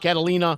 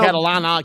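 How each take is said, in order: First: The name ends in -ina. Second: The name ends in -ana. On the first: "A lot of people call me" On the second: "A lot of people call me"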